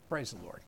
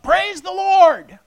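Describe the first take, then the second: First: It is said flatly without energy. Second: It is shouted loudly with energy.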